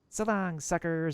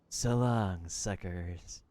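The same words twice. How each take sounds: First: It is said in a cocky, energetic tone. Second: It is said in a low, mysterious tone.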